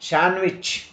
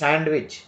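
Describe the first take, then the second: First: The D sound is left out. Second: The D sound is pronounced. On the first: The speaker calls it right. "D is not pronounced" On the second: The speaker calls it wrong. "Don't say"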